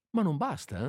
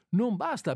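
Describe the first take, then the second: First: Said in the usual way. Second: "Non basta" pitched high, "basta" hit hard; emphatic "basta". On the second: Shown as a demonstration. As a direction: stress the word "basta" higher.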